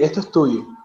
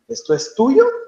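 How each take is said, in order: First: It is said with statement intonation. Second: It is said with question intonation. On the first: It is stated as a fact. "that is not a question. Yes, that is a, an affirmation" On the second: It is asked as a question. "they make the asking intonation"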